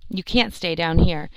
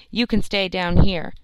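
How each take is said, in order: First: "can't" said with a clear final t, corrected. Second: "can" read without the t, a slip; misread can. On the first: The narrator fixing the misread word, stressing can't. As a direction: land the t of "can't" firmly. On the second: The narrator slipping, reading can instead of can't. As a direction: say "can" as a plain positive word. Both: Real, not acted.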